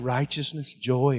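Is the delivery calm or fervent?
calm. It is said in a calm, plain way. It is only quoted. The speaker calls it wrong. "They didn't say"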